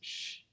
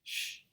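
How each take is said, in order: The two takes are said the same way.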